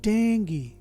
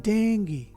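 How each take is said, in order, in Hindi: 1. शब्द का अंतिम स्वर 'ee' ध्वनि है। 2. शब्द का अंतिम स्वर 'ee' ध्वनि है।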